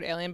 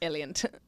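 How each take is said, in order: First: The word ends without a t sound. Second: The word ends with an added t sound. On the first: "the word alien" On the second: "but he said alient"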